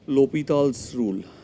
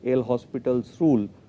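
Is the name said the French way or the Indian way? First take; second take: French; Indian. First: The name is said the French way. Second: The name is said the Indian way. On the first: "if you go by the French pronunciation" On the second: "in India we will call it"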